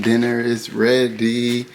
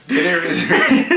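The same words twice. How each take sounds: First: Said in the usual way. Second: High, loud call, breaking into laughter; yelling across the room. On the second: Real, not acted. Calling across house, laughing.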